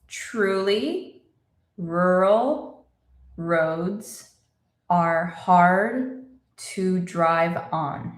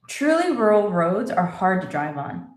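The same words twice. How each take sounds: First: The sentence is spoken slowly and deliberately. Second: The sentence is spoken at a normal conversational pace. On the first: "Let's say it slowly" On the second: "And normal speed"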